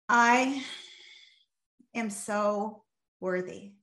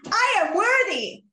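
First: It is said slowly and calmly, with feeling. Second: It is said with high, amped-up energy.

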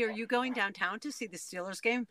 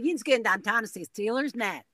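First: It is said in a standard American accent. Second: It is said in a Pittsburgh local accent. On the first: "They won't say" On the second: "They would say"

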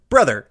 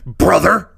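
First: It is said in a plain, normal voice. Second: It is said in an exaggerated put-on voice. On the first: It gives no hint about the answer. The speaker calls it wrong. "instead of brother" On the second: It hints at a famous wrestler with the same surname. The speaker calls it right. "if I said it brother"

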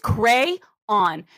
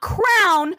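First: It is said as two syllables, cray-on. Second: It is said as one syllable, like crown. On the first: The speaker calls it right. "it is crayon" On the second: The speaker calls it wrong. "not crown ... It is not C-R-O-W-N"

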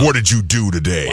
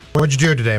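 First: It is said in a put-on football voice. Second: It is said in a normal voice.

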